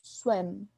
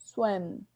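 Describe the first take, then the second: First: The word ends with the lips closed. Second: The word ends with the lips closed.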